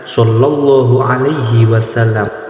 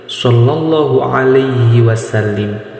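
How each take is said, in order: First: The last word ends with an 'am' sound. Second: The last word ends with an 'im' sound. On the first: The speaker calls it right. "Jadi yang betul" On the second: The speaker calls it wrong. "kadang-kadang orang salah membacanya. Biasanya seperti ini"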